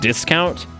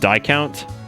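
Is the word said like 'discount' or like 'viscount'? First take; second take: like discount; like viscount. First: It is said with its normal pronunciation. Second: It is said to rhyme with viscount. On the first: The speaker calls it right. "the way we pronounce like discount" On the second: The speaker calls it wrong. "you would think that discount would be pronounced Discount"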